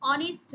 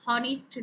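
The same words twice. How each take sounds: First: অনেস্ট begun on the vowel, no h; silent h. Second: হনেস্ট with a clear h at the start; wrong sounded h. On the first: Teacher showing students the silent h in অনেস্ট. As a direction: say অনেস্ট like "onest", h dropped. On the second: Teacher showing students the wrong h-sounded হনেস্ট. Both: Shown as a demonstration. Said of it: "এখানে কিন্তু উচ্চারণ হনেস্ট নয়".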